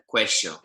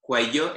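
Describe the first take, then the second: First: The double L sounds like sh. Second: The double L sounds like y. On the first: This is how people in Argentina say it. "if you go to places like Argentina, they make a sh noise" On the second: This is the standard way for the learners. "for us, cuello is just fine"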